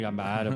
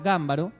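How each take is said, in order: First: The stress is on the second syllable. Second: The stress is on the first syllable. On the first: This is the locally adopted pronunciation. "nosotros acá nos la apropiamos como" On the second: This is the original Italian pronunciation. "dicen que en italiano se pronuncia Gámbaro"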